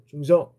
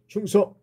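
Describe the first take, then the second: First: The greeting is said weakly and without confidence. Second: The greeting is said strongly and with confidence. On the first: The speaker calls it wrong. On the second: The speaker calls it right.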